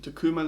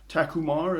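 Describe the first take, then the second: First: The word is said in a non-American accent. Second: The word is said in an American accent.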